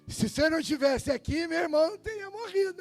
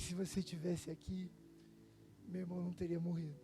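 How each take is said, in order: First: It is said sharply and accusingly. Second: It is said softly and affectionately. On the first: The speaker blames him for being absent. "eu acho que a Marta falou de outro jeito" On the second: The speaker is glad to see him despite the loss. "eu aposto que Maria deve ter falado assim, puxa, paizinho"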